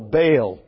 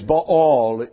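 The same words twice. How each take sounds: First: The name is said the common English way. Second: The name is said the Hebrew way. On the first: This is how listeners usually say it. The speaker calls it wrong. "you call Baal" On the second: This is the original pronunciation. The speaker calls it right. "it is Baal in the Hebrew, and we will retain the correct pronunciation"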